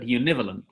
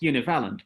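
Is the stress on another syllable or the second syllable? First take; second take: second syllable; another syllable. First: The stress falls on the second syllable. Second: The stress falls on a syllable other than the second. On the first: The speaker calls it right. "with the stress on the second syllable" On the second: The speaker calls it wrong. "not univalent"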